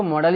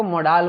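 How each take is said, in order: First: Said in the usual way. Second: मोडाल with a long "aa" in the second syllable; alternative pronunciation. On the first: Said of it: "कुछ लोग मॉडल्स को मॉडल ही बोलते हैं". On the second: Shown as a demonstration. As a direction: say मोडाल as "mo-DAAL", drawing out the last vowel. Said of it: "कुछ लोग इसको मोडाल बोलते हैं".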